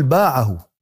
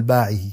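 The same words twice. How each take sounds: First: باعه with a-vowel, ending in "-ahu"; باعه pronounced with fatha then damma, "baʕahu"; corrected ending "baʕahu". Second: باعه with i-vowels, ending in "-ihi"; باعه pronounced with a kasra, "baʕihi"; genitive ending "baʕihi". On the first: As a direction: say باعه as "BAA-ʕa-hu". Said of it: "قل باعه". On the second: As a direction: say باعه as "BAA-ʕi-hi". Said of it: "لا تقل باعه، قل باعه". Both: Acted.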